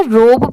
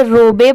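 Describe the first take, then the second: First: रोब as one syllable, ending on b; correct pronunciation. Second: रोबे with an extra "ay" vowel on the end; mispronounced रोबे. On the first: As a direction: say रोब with a long o and a silent final e. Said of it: "इसे रोब pronounce किया जाता है". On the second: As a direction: misread the silent e, saying रोबे in two syllables. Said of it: "जिनको नहीं आता है इसे रोबे पढ़ देते हैं". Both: Shown as a demonstration.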